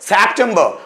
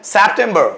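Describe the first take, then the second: No difference in how they are said.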